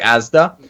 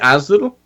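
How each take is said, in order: First: It is said in a standard accent. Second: It is said in a Bristol accent.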